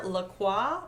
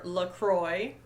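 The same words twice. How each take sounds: First: "Lacroix" with a silent x, ending in WAH; French-style pronunciation. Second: Put-on "LaCroix" ending like the word "boy"; anglicised pronunciation. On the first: Reading cast names unsure, "Lacroix" tried as luh-KWAH. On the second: Offering another guess at the name, "LaCroix" as luh-CROY. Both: Shown as a demonstration. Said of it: "I didn't look up how to pronounce".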